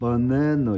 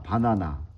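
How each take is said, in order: First: It has English-style reduced and shifted vowels. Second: It has Korean-style full 'a' vowels throughout. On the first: This is how English speakers say it. The speaker calls it right. "이렇게 된다는 거야" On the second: This is how Koreans usually say it. The speaker calls it wrong. "우리 이제 바나나라고 하잖아"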